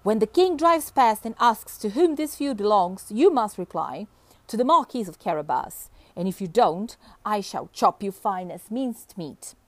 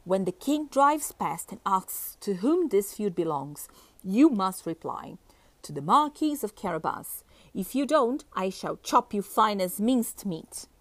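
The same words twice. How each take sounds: First: Firm, forceful narrated threat; fiercer voice. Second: Understated fierce warning. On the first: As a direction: lay down the order fiercely, starting loud. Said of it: "in an even fiercer voice". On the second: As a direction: give the threat with mild firmness. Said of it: "called Puss in a fierce voice". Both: A narrator's reading.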